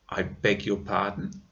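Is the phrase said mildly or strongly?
mildly. The phrase is said in a milder tone. "like that"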